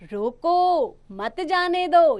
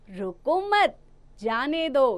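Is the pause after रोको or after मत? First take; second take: after रोको; after मत. First: The pause comes after रोको. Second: The pause comes after मत.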